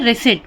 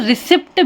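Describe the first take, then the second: First: The p sound is silent. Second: The p sound is pronounced. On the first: The speaker calls it right. "पी silent हो जाता है" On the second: The speaker calls it wrong. "बहुत से लोग इसे रिसिप्ट भी पढ़ते हैं जो कि सही नहीं है"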